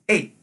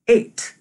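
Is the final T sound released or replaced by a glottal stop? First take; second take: glottal stop; released t. First: The word ends with a glottal stop instead of a T. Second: The word ends with a clearly released T sound. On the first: "They instead say eight. ... notice the lack of a T sound" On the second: "Many Pacific Northwestern English speakers are likely to say eight"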